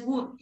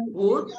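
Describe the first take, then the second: First: "would" as "wooood", tight oo; wrong long U. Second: "would" as "wud", short loose oo; short open U. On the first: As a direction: stretch "would" to rhyme with "food". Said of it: "no es would". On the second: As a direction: say "would" to rhyme with "good". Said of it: "No, es good". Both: Shown as a demonstration.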